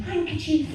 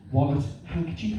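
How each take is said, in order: First: High, appalled cry of Handkerchief!; mock horror. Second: Said in the usual way. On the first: Comedian appalled at himself for carrying a handkerchief, high mock cry. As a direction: recoil at the word Handkerchief!. Appalled at own old habit.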